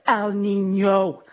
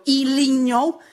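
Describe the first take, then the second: First: "El Niño" as "el-NEEN-yo", slow and even; corrected pronunciation. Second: "El Niño" as "ee-LEEN-yo", rising and higher; wrong pronunciation. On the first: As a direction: sound out "El Niño" slowly, starting with el. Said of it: "No, it's El Niño". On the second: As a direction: say "El Niño" questioningly, starting with ee. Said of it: "before I would go". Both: Shown as a demonstration.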